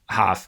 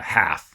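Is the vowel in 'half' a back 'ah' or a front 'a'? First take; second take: back; front. First: The vowel is a back open 'ah' sound. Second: The vowel is a front open 'a' sound.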